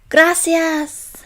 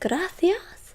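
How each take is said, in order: First: The c is said as a plain s sound. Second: The c is said with a lisped th sound.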